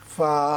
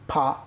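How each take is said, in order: First: The sound is made with teeth on lower lip. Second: The sound is made with both lips together. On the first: The speaker calls it right. "উপরের দাঁতের আগা নিচের ঠোঁটের পেটে লাগিয়ে ফা বাতাস দিতে হবে।" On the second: The speaker calls it wrong. "অনেকে ফা উচ্চারণ করেন দুই ঠোঁট মিলিয়ে, ফা না, এভাবে করা যাবে না।"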